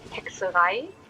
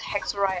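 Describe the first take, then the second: First: The word is said in a native German pronunciation. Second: The word is said in an English-style pronunciation. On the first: The speaker calls it right. "it's actually Hexerei" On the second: The speaker calls it wrong. "I pronounce it Hexerei as well"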